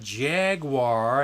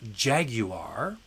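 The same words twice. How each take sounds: First: It is said in an American accent. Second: It is said in a British accent.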